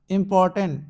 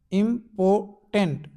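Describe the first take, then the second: First: Said in the usual way. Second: important slowly as IM, POR, TENT; three separated beats in important; split into syllables. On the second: Shown as a demonstration. Teacher showing dictionary syllable breaks, split into syllables. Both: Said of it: "syllable जो है आपके show किए".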